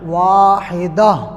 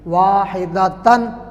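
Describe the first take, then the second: First: The word ends softly with an 'ah' sound. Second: The word ends with a full 'tan' syllable. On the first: The reciter stops on this word. "वक़फ़ में वाहिदत नहीं पढ़ेंगे, वाहिदा हा पढ़ेंगे" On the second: The recitation continues past this word. "यह है वाहिदतन"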